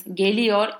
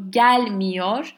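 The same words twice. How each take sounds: First: Said in the usual way. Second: GELMIYOR with a louder, punched GEL; gelmiyor, first syllable stressed, the rest trailing after. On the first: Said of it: "if it's negative". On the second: Shown as a demonstration. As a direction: lean hard on the GEL in gelmiyor. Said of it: "then that gel is".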